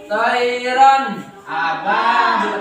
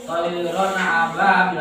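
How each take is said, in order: First: The n sound is pronounced clearly before ababil. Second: The n sound is blurred into the next word. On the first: The speaker calls it right. "Harus kalian jelaskan bacanya" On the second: The speaker calls it wrong. "Jangan toiron ababil. Nah, itu tidak jelas"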